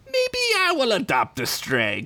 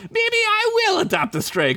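First: High, sly taunt; sly Crinkles. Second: Very high sly taunt; sly Crinkles, higher. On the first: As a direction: tease the threat out. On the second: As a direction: push the voice up even more. Retake of line 59. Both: Acted.

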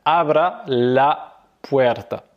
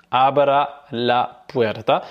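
First: Slow, drawn-out Spanish; careful teacher demo; slow model phrase. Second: Even slower clear Spanish; slow teacher repetition; slow repeat. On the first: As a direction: model it slowly for the learner. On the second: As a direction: repeat it slowly so they can copy. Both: Shown as a demonstration. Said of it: "donc tu vas dire".

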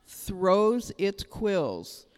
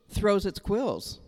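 First: Each word drawn out slowly for weight; slow it right down, let it land; very slow emphasis. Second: Said in the usual way. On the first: Shown as a demonstration. Pastor repeating the porcupine point, very slowly. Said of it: "repeated slowly". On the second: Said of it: "repeated for emphasis".

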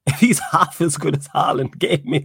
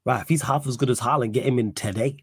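First: Louder, laughing emphasis; emphatic repeat. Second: Said in the usual way. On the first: Real, not acted. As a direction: hammer the punchline home with a laugh. Repeats joke line louder, laughing.

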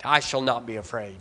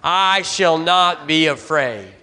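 First: Said in the usual way. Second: "I shall not be afraid." said slowly, every word weighted, for the congregation to echo; slow emphatic call. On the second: Shown as a demonstration. Pastor leads the congregation in a slow declaration. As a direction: lead them word by word, slow and firm. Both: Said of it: "Say it with me".

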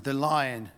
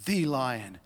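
First: Said in the usual way. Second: "the" said as a weighty "thee"; stress on "the". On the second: Acted. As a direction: lean on "the", pronounced "thee", before "lion". Repeats with emphatic article.

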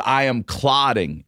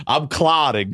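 First: "I am clotting" slowed, word by word; emphatic repeat. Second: High, strained retold cry; mock distressed announcement. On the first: Retold or imitated. Patient repeats it to shocked therapist, slow emphatic "I am clotting". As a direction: spell out "I am clotting" slowly, a bit higher. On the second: Patient tells therapist what is wrong, mock high distress.

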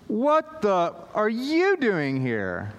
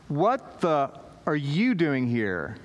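First: Slow, drawn-out mock disbelief, higher; hammed-up baffled kid; stunned teen. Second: Put-on shocked teen. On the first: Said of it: "said it over and over". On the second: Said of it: "what you say to a youth pastor".

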